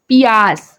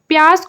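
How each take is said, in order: First: The word starts with two syllables, 'pi-ya'. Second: The word starts with the cluster 'pya'. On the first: This is how it is said in Chhattisgarhi. "बोलते हैं छत्तीसगढ़ी में पियास" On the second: This is the standard Hindi form. "प्यास को"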